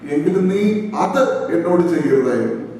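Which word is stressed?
അത്. The stress is on the word അത്.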